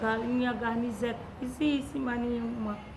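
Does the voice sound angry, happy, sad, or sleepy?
sad. It is said in a sad voice. "Com muita tristeza"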